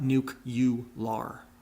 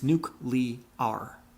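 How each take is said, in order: First: The middle sounds like 'cue', adding a 'you'. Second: The middle sounds like 'clee', with no 'you'. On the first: The speaker calls it wrong. "not nuke-you-lar" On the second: The speaker calls it right. "It's nuclear"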